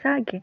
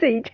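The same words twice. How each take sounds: First: The word is split into two syllables. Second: The word is said as one syllable. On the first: "divide this two syllables, it becomes Sage" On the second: "I think it is pronounced sage"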